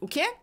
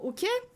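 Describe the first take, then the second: First: It is said in a blunt, curt tone. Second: It is said in a soft, sweet tone. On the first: It may come across as rude. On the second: It comes across as friendly.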